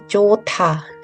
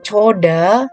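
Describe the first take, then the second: First: The second consonant is a hard t sound. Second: The second consonant is a soft d sound. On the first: The speaker calls it right. "walaupun tidak dibaca tetap dianggap dia konsonan jadi cota" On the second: The speaker calls it wrong. "bukan dibaca coda ya"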